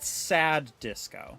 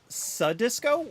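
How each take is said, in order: First: It is said with two separate D sounds. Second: It is said with a single D sound.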